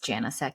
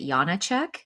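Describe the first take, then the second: First: The surname is given its American pronunciation. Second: The surname is given its Czech pronunciation. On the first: This is how people in America say it. "the American way is" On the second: This is how people in the Czech Republic say it. "if I was over there, they would pronounce it"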